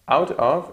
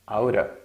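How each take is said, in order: First: Both words are said fully and separately. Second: The two words blend into one reduced word.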